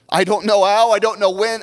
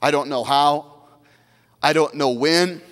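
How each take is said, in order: First: Louder, rising repeat of the phrase; louder build. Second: Said in the usual way. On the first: Shown as a demonstration. Pastor repeating the phrase to the church, now louder and rising. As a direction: push it up, rising on how and when. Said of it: "repeated phrase, now rising loud". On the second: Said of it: "repeated phrase, first quietly".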